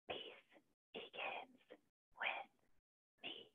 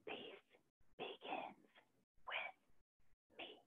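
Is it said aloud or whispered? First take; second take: whispered; whispered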